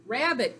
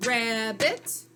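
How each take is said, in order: First: Said in the usual way. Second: RABBIT in two separate beats, rising at the end; clapped-out syllables. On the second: Shown as a demonstration. Teacher claps out the word for pupils, syllable by syllable. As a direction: draw out RAB, then a distinct BIT. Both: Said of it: "clap it out".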